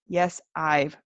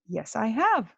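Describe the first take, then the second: First: The sentence ends on a contracted 'I've'. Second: The sentence ends on a full 'have'. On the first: The speaker calls it wrong. "What we would never say is" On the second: The speaker calls it right. "Or we might say"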